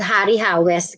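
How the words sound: The name is said in a Philippine English way. "when you are lecturing this in the Philippines, it's called Hari Hawes"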